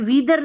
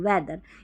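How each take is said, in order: First: The first vowel is a long ee sound. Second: The first vowel is a short e sound. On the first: The speaker calls it wrong. "वीदर नहीं" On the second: The speaker calls it right. "ई ए को ए pronounce कर रहे हैं"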